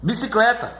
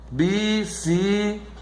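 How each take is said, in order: First: Said in the usual way. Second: Slow, split bi-ci-cle-ta; syllable by syllable. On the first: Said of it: "Quantas vezes você abre a boca pra falar". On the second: Shown as a demonstration. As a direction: say "Bicicleta" slowly in separate syllables. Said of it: "você divide a sílaba".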